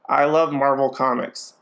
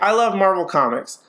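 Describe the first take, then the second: First: The voice is flattened, lowered and slightly gruff. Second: The voice is natural, with ordinary pitch and tone. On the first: "he lowers his tone, he drops it a little bit, and he uses a little bit more gruff" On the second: "let's take any standard American English sentence"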